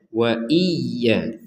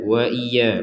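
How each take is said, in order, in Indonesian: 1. Bunyi y-nya ditekan dan ditahan, dobel. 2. Bunyi y-nya ringan dan pendek, tidak ditekan. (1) "Harus ada tekanan" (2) "tidak sekedar wa iya ya, wa iya, wa iya, kurang ada tekanan itu"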